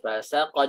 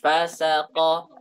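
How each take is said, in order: First: The stress is on the syllable sa. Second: The stress is on the syllable fa. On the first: The fa is a separate word from saqa. "harus kita berikan tekanan pada sin" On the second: The fa seems part of the word saqa. "jangan kita tekan di fa, jangan fasaqa"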